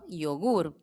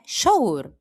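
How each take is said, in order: First: The Y is said in a non-Argentine way. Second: The Y is said in an Argentine way. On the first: "ou então iogur, depende do sotaque" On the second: "No meu é argentino, é yogur"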